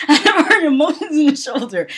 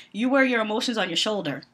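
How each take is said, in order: First: Louder, higher mock quote; mocking repeat. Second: Said in the usual way. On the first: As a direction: laugh at the botched saying as you repeat it. Repeats the botched saying, mocking it.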